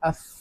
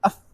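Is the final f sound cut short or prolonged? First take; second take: prolonged; cut short. First: The f sound continues and is drawn out. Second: The f sound is cut off abruptly. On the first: The speaker calls it right. "അഫ് ശബ്ദം നീണ്ടു പോവും" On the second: The speaker calls it wrong. "അഫ് എന്നാണോ? അല്ല"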